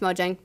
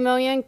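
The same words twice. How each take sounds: First: It is said with an American pronunciation. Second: It is said with a Swedish pronunciation.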